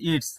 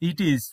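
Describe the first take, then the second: First: The words merge into one contracted syllable. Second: Two separate words are said in full.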